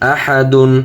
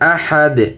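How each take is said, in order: First: The word ends with an added -un sound. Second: The word ends on a bare d consonant. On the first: The reading continues without a stop. "দা দুই পেশ দুন" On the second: The reader stops at this word. "অক্ফ করলে আহাদ"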